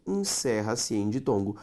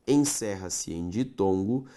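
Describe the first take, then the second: No difference in how they are said.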